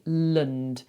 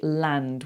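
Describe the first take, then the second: First: The vowel is a reduced, weak 'uh' sound. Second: The vowel is a full, open 'a' sound. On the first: The speaker calls it right. "we say lund" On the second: The speaker calls it wrong. "we don't say land"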